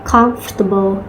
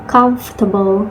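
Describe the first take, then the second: Both takes have the same delivery.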